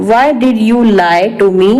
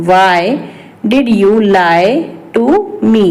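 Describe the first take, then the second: First: Said in the usual way. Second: Broken up with clear pauses; word-by-word repeat. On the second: Shown as a demonstration. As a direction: dictate it to learners piece by piece. (एक-एक शब्द रुक कर)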